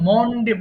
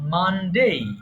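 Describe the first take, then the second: First: The first syllable has an 'o' vowel. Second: The first syllable has an open 'a' vowel. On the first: The speaker calls it wrong. "মন্ডে বলবে না" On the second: The speaker calls it right. "সবাই মানডেই বলবা"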